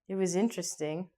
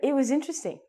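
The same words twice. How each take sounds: First: It sounds negative and unimpressed. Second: It sounds positive and enthusiastic. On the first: Something was wrong with the dinner. "they're going to know something's wrong" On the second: The dinner was good. "People think that it was positive"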